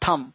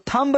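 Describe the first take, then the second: First: The word ends on the m sound, no b. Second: The word ends with an audible b sound. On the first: The speaker calls it right. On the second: The speaker calls it wrong. "थंब नहीं"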